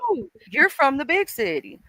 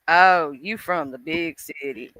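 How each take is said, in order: First: The tone sounds sincere and friendly. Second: The tone sounds mocking and condescending. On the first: The question is genuinely asked. "being nice and actually asking" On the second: The listener is being looked down on.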